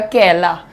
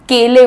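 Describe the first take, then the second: First: It is said with the Sitapur accent's changed vowel. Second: It is said with the standard Hindi vowel.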